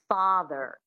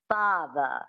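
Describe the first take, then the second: First: It is said in an American accent. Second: It is said in a transatlantic accent.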